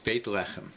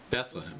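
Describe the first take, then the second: First: The name is said in its Hebrew form. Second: The name is said in its English form. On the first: The speaker calls it right. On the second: The speaker calls it wrong.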